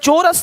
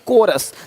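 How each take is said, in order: First: The word begins with a ch sound. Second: The word begins with a k sound. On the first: The speaker calls it wrong. "नहीं" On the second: The speaker calls it right. "यहाँ भी सी एच भी का है"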